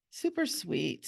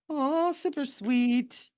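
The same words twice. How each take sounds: First: Said in the usual way. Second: High, slow, drawn-out aww; cooing. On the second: Real, not acted. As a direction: coo over something adorable. Cooing over the drawn elf.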